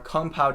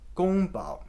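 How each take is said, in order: First: It is said with an American English pronunciation. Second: It is said with a Mandarin Chinese pronunciation. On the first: The speaker calls it wrong. "I'm pronouncing these like an American would" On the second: The speaker calls it right. "The correct pronunciations are actually"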